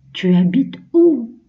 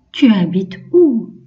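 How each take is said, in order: First: Higher "Tu habites où" stressing "où"; higher repeat. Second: Louder "Tu habites où" with falling "où"; question example. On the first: Teacher repeats the question higher for children. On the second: Teacher models a question for the class, clear and loud. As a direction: ask it clearly, leaning on "où". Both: Shown as a demonstration. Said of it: "Deuxième phrase".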